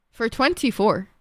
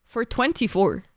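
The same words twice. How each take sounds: The two takes are said the same way.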